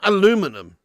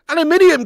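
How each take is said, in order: First: The word is said with four syllables. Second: The word is said with five syllables. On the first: The speaker calls it wrong. "You you leaving out a whole eye" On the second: The speaker calls it right. "There's a whole extra eye in there"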